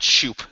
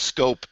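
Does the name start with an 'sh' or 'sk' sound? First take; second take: sh; sk. First: The name starts with an 'sh' sound. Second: The name starts with an 'sk' sound. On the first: The speaker calls it wrong. "and not Shoop" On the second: The speaker calls it right. "is pronounced Scope"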